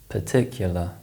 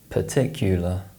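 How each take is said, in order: First: The unstressed vowel is reduced to a schwa. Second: The unstressed vowel is a short full oo sound.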